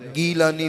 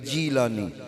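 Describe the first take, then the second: First: The name begins with a hard G sound. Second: The name begins with a J sound. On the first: This is the original local form of the name. "गाफ नहीं है, इस वास्ते उधर गाफ दी जगह ते जीम बोलिया जाता है" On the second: This is the Arabic form of the name. "गाफ दी जगह ते जीम बोलिया जाता है"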